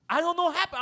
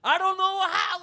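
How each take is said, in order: First: Loud, high, repeated complaint; mock yelled excuse. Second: Very loud, high yell; louder mock yell. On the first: Cellmate yelling his excuse across the cell. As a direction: holler it from the cell. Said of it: "and then I hear". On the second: Cellmate yelling his excuse again, louder. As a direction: belt it out, exasperated. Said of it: "Then I hear".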